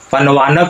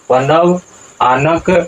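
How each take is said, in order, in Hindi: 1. यह एक शब्द की तरह मिलाकर बोला जाता है। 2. यह दो अलग शब्दों में बँटा होता है। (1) "पनवानक नहीं होगा" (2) "यहाँ उच्चारण क्या होगा?"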